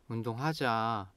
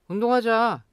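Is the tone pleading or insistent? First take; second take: pleading; insistent. First: It is said in a pleading tone. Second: It is said in an insistent tone.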